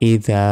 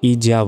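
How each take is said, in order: First: The middle consonant is a th sound, tongue out. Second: The middle consonant is a buzzing z sound. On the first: The speaker calls it right. "জিহ্বা বের করে উচ্চারণটা করতে হবে" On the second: The speaker calls it wrong. "আমরা অনেকে ইজা বলি, ইজা কিন্তু এটা ভুল উচ্চারণ"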